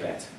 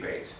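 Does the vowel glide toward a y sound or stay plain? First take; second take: plain; glide. First: The vowel is short with no y glide. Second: The vowel glides into a y sound. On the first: The speaker calls it wrong. "most people just say bet" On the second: The speaker calls it right. "But really it should be beit"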